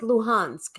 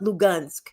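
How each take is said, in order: First: The middle consonant is a soft H sound. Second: The middle consonant is a hard G sound. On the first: It is the Ukrainian form of the name. The speaker calls it right. "pronounce it Luhansk" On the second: It is the Russian form of the name. The speaker calls it wrong. "not Lugansk, the Russian way"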